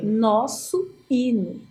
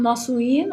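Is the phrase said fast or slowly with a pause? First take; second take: slowly; fast. First: The two words are said slowly, with a pause. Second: The two words are said quickly, run together.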